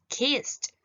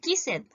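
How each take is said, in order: First: The ending is said as a T sound. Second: The ending is said as a separate syllable. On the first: The speaker calls it right. "Yo voy a decir" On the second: The speaker calls it wrong. "Yo no voy a decir"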